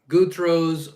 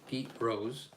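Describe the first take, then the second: First: The name begins with a 'guth' sound. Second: The name begins with a 'geet' sound. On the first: The speaker calls it wrong. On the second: The speaker calls it right.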